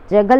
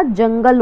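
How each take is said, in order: First: "जगल" said as ja-gal; wrong, without n. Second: "जंगल" said as jang-gal with a nasal ng; correct with n. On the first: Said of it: "जगल नहीं होता". ("जगल" बिना न के) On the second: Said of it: "जंगल होता है". ("जंगल" ङ की ध्वनि के साथ) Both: Shown as a demonstration.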